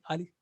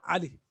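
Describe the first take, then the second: First: The word begins with a plain open vowel. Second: The word begins with a tight throat sound. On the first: The speaker calls it wrong. "not Ali" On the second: The speaker calls it right. "You say Ali"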